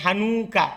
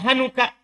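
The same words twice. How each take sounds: First: The vowel after the n is drawn out long. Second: The vowel after the n is short and quick. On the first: The speaker calls it wrong. "Jadi bukan hanuka" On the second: The speaker calls it right. "Tapi cepat"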